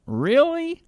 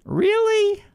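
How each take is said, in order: First: High, drawn-out sarcastic really; mock disbelief. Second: Even higher repeat of "Really?", squeaky with disbelief; mock disbelief. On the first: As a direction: scoff at the claim with a high mocking "Really?". Mocking disbelief at climate claim. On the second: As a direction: push the scorn further with a much higher "Really?". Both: Real, not acted.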